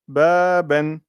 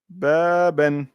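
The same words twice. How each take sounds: First: The first vowel is long. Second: The same.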